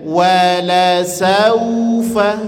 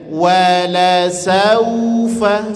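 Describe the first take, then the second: First: The vowel is soft with rounded lips. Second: The same.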